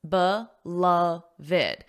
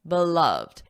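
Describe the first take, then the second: First: The word is said with three syllables. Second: The word is said with two syllables. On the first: "There are three syllables" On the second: "So that means it would normally be beloved"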